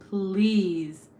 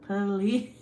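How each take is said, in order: First: PLEASE loud and drawn out in one syllable; pleading. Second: "Please" broken into puh-LEEZ, loud, rising; exaggerated pleading. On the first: Streamer begs viewer to reveal a phrase's origin, pleading. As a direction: stretch "Please" into a loud plea. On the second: Streamer begs viewer once more, exaggerated pleading. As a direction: split "Please" into two begging syllables. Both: Real, not acted.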